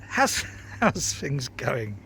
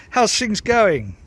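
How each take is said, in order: First: Laughing greeting. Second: Bright greeting. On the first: Laughing while greeting viewers. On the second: Repeats greeting more loudly. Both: Real, not acted.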